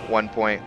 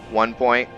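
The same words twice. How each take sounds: The two takes are said the same way.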